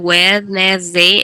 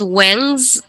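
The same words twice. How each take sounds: First: It is read letter by letter, Spanish style. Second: It is said the English way, with a z. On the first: The speaker calls it wrong. "no vamos a leer inglés como si fuera español, no es Wednesday" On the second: The speaker calls it right. "decimos Wednesday y nuevamente acá hay otra Z"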